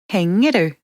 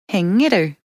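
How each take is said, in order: Both takes have the same delivery.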